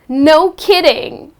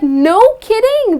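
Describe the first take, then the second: First: It sounds sarcastic and weary. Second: It sounds mildly surprised and pleased. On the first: The news has been heard too many times. "So you are adding some sarcasm" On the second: The news is unexpected and welcome. "to express mild surprise"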